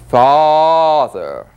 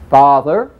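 First: It is said slowly with a long stretch. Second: It is said rapidly with less stretch.

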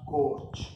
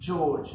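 First: The name begins with a hard G sound. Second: The name begins with a soft J sound. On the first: The speaker calls it wrong. "not Gorge" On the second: The speaker calls it right. "here it's J because it's George"

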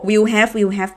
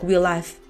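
First: Both words are said fully, with the h sounded. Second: The words link together and the h is dropped. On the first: "ก็ออกไปสี่เสียงออก" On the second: "คือเขาลิงก์เสียงเขาแบบตัว h ไม่ออก"

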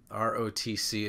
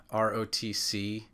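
First: Each letter is said separately. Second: Each letter is said separately.

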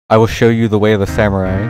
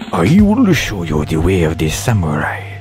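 First: It has a mild put-on Japanese accent. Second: It has a strong put-on Japanese accent.

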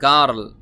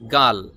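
First: The word is said with an r sound. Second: The word is said without an r sound. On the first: "লেখা আছে গার্ল, গার্ল এরকম না বলে" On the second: "আপনি just গাল বললেও হবে"

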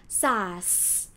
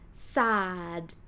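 First: The word ends with an s sound. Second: The word ends with a d sound. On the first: The speaker calls it wrong. "this word is not pronounced sas" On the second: The speaker calls it right. "end with d sound"

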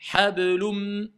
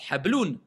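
First: The final n is dropped into the next m. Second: The word ends with a clear n sound. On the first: "je ne prononce plus le N" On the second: "On a un à la base"

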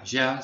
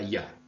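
First: The word has the Rioplatense y sound. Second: The word has the neutral Spanish y sound. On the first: This is how it is said in the River Plate region now. "ya no se diga ya" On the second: This is how it may be said in the future under dubbing influence. "sino que se diga ya"

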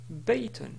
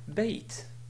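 First: The word ends with an -un sound. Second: The word ends without any -un sound. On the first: The speaker keeps going after the word. "ce mot ici se prononce Bayton" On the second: The speaker stops on this word. "on peut le prononcer d'une manière simple en disant Bait"

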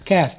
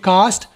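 First: It is said with an American accent. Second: It is said with a British accent. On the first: "American वाले बोलते हैं" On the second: "British वाले बोलते हैं"

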